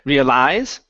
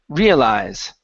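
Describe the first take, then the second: First: The stress is on the last syllable. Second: The stress is on the first syllable. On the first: The speaker calls it wrong. "Instead of realize, putting the stress at the end here" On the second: The speaker calls it right. "the stress is at the beginning"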